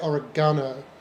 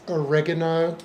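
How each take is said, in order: First: It is said with a British pronunciation. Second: It is said with an American pronunciation. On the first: "in Britain we would say oregano" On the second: "here it's oregano"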